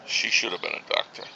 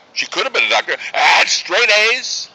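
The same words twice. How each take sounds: First: Low, soft parental disappointment; quiet regret. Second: Frustrated protest. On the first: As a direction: say it under your breath with regret. Father regretting daughter's career. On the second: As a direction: build louder and higher in parental frustration. Father protesting daughter's wasted potential. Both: Acted.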